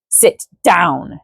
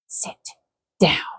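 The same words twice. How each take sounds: First: It is said at a normal, fairly loud volume. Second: It is said very low and quiet. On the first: The speaker calls it wrong. "I didn't read the stage directions before I said it" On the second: The speaker calls it right. "so low that the men could barely catch the words"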